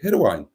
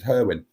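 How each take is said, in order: First: The last syllable sounds like 'wine'. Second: The last syllable sounds like 'win'. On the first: This follows the Welsh pronunciation. The speaker calls it right. "the announcers were calling it Hirwine" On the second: This is how the locals say it. The speaker calls it wrong. "all the time that I grew up, it was Herwin"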